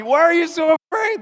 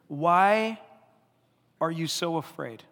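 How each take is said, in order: First: High loud disbelieving question; Jesus asking his scared disciples in disbelief; incredulous high question. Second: Gentle question. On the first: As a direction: ask it amazed and loud. Voicing Jesus' question, laughing. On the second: Quoting Jesus gently. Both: Retold or imitated.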